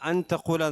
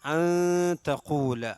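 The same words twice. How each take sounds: First: The n is pronounced clearly before the t. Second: The n is hidden and nasalized before the t. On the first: The speaker calls it wrong. "എന്നല്ല" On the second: The speaker calls it right. "അവിടെ ഇൽഹാർ ചെയ്യാൻ പാടില്ല"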